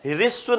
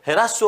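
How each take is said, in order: First: The first syllable is said with an 'ri' sound. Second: The first syllable is said with an 'ra' sound. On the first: The speaker calls it wrong. "री नहीं होती" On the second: The speaker calls it right. "र होता है"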